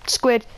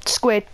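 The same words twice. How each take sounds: The two takes are said the same way.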